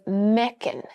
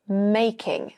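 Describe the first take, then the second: First: The first vowel sounds like 'eh'. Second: The first vowel sounds like 'ay'. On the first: This is how the other woman says it. "she also says mecking" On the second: This is the speaker's own way of saying it. "as I would say it"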